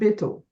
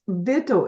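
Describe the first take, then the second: First: The word begins with a b sound. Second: The word begins with a v sound. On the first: The speaker calls it wrong. "not Bittel" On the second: The speaker calls it right. "it's Vittel"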